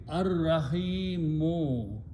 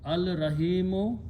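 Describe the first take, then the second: First: There is no l; the r is doubled. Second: An l sound is heard before the r. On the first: "we don't pronounce lam, but we pronounce ra twice" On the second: "So this will become al rahimu"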